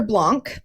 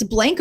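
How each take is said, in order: First: "Blanc" with an open ah vowel; fancy French-style reading. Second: "Blank" said to rhyme with "tank"; plain English reading. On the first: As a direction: say "Blanc" the French-sounding way, like "blonk". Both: Shown as a demonstration. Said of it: "I heard it pronounced both ways".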